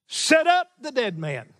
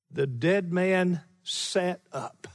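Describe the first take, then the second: First: "Set up" punched first, higher and stronger than the rest; emphasis on SET UP. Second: Said in the usual way. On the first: Shown as a demonstration. Preacher showing the Greek word order, "Set up" strongly stressed. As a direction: hit "Set up" hard, let "the dead man" fall. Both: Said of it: "put emphasis on the verb".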